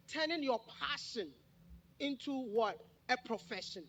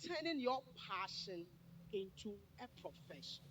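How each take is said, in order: First: "Turning your passion" punched, then "A profession" given firmly as the answer; louder "A profession" after a questioning "into what?"; emphatic repetition. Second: Said in the usual way. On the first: Real, not acted. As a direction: dictate it with weight on "passion" and "profession". Repeats topic for note-takers.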